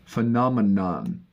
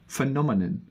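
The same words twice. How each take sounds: First: American accent, with more weight on the ending. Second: British accent, with less weight on the ending. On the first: "in American, they focus much more on the ends" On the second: "this is the British pronunciation of phenomena"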